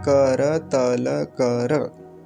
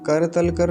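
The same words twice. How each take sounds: First: The final consonants carry a full a vowel. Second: The final consonants are clipped without a vowel. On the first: The speaker calls it right. "ऐसा" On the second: The speaker calls it wrong. "कर तल कर नहीं होता"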